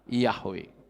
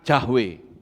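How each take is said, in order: First: The name begins with a 'y' sound. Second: The name begins with a 'j' sound. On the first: The speaker calls it right. "yang betul adalah Yahweh" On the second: The speaker calls it wrong. "orang Batak menyebutnya Jahwe"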